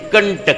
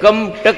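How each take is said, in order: First: The nasal blends into the following t sound. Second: The nasal is a clear separate m sound. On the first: The speaker calls it right. "नाही कंटक म्हणतात" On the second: The speaker calls it wrong. "कम टक म्हणायला पाहिजे होतं"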